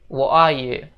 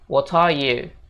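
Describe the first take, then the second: First: The t in 'what' becomes a glottal stop. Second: The t in 'what' is released clearly. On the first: "Jadi T itu seolah-olah koma di atas gitu" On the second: "Jadi T-nya dibaca jelas gitu"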